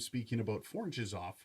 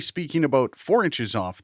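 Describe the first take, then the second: First: The voice is picked up from the rear. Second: The voice is picked up from the front. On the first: "four inches off from the rear of the microphone" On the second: "speaking about four inches off the front of the microphone"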